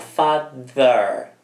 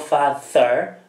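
First: The th sound is voiced. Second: The th sound is voiceless. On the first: The speaker calls it right. "ma father. Delta" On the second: The speaker calls it wrong. "Non father"

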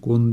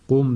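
First: The syllable ends with an n sound. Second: The syllable ends with an m sound. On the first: The speaker calls it wrong. "Kun değil" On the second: The speaker calls it right. "Kum dedik"

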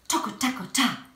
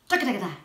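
First: The phrase is said at a moderate pace. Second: The phrase is said at a very fast pace.

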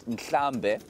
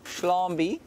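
First: The word begins with an 'n' sound. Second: The word begins with an 'sh' sound. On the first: The speaker calls it right. "the word Nklambe, which means herd" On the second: The speaker calls it wrong. "which is a very bad sort of pronunciation of the word"

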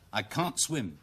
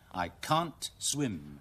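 First: The sentence is said fast without a clear t. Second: The sentence is said at a normal pace.

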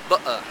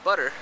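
First: The middle T is a glottal stop. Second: The middle T is a quick tap like a soft d. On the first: This is the London English pronunciation. "in London English, you would say butter, meaning that you would glottalize this T" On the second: This is the American English pronunciation. "In American English, you would say butter"

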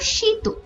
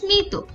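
First: The m sound after the first consonant is silent. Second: The m sound after the first consonant is pronounced. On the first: The speaker calls it wrong. "হওয়া উচিত ছিল শীত" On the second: The speaker calls it right. "একইভাবে স্মিত"

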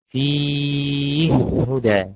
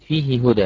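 First: The first h is silent and merged into the second. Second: The first h has a vowel, kept separate. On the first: "يقولها كده فيه هدى بالإدغام الكبير" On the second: "الهاء عليها إيه؟ كسرة"

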